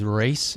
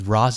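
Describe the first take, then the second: First: The first word is said like 'race'. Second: The first word is not said like 'race'. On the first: This is how the game says it. "he's Race in the game" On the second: This is how the speaker always said it. "I always thought he was Ra's al Ghul"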